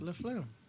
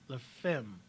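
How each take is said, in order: First: The second word sounds like flim. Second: The second word sounds like fem. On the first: The speaker calls it wrong. "I always say it wrong" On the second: The speaker calls it right. "No, I'm sorry. La Femme"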